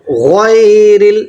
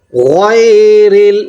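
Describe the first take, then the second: No difference in how they are said.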